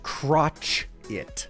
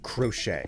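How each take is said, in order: First: The word ends with a 'chit' sound. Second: The word ends with a 'shay' sound. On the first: "I see specifically crotch it. Like that is the pronunciation" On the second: "I do not think crochet"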